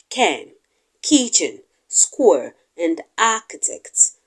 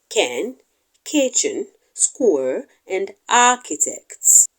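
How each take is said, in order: No difference in how they are said.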